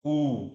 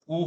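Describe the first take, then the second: First: "ऊ" held long; long vowel. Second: "ऊ" said short, like उ; short vowel. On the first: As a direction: stretch "ऊ" for two beats. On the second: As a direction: keep "ऊ" to one beat. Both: Shown as a demonstration. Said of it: "दूसरी तरफ आपका क्या हो जाता है".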